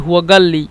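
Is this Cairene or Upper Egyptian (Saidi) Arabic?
Saidi. The qaf is said as g, Saidi style.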